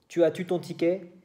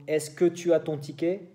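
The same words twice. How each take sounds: First: Quebec tu as-tu, rising; Quebec question. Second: French question. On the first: Showing students the Quebec question form, rising tu. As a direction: lift the doubled tu Quebec style. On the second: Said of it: "para los franceses". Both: Shown as a demonstration.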